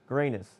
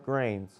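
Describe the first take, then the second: First: The name is said with two syllables, like Granus. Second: The name is said as one syllable, like grains. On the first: The speaker calls it right. "His name is correctly pronounced Granus" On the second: The speaker calls it wrong. "or Grains"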